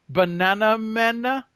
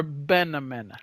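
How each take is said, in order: First: "Banana Mana" as two clear words, bə-NA-na MA-na; Banana Mana, split apart. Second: "Banamana" squashed into one word, BE-na-me-na; Banamana, run together. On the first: Gamer testing a pet name, saying "Banana Mana" in full. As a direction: say "Banana Mana" fully, both words whole. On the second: Gamer testing a pet name, running "Banamana" together. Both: Shown as a demonstration. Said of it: "or Banamana".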